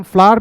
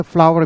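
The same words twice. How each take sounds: First: फ्लावर said short, like "flar"; one of two pronunciations of flower; first pronunciation. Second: फ्लावर said in full as "fla-wer"; the other pronunciation of flower; second pronunciation. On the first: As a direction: say फ्लावर clipped to one syllable. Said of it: "इसे हम फ्लावर भी कहते हैं". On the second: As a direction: say फ्लावर with two clear syllables. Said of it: "इसे फ्लावर भी कहते हैं". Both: Shown as a demonstration.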